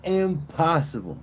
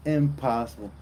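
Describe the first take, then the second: First: Impossible said higher and drawn out; emphatic impossible. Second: Said in the usual way. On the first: Real, not acted. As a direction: stretch Impossible with mock outrage. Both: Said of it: "could somebody do that".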